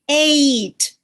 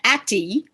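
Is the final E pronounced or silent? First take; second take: silent; pronounced. First: The final E is silent. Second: The final E is pronounced as a syllable. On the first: The speaker calls it right. "now I pronounce this ate" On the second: The speaker calls it wrong. "I do not pronounce that atty"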